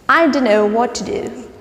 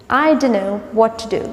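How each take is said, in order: Both takes have the same delivery.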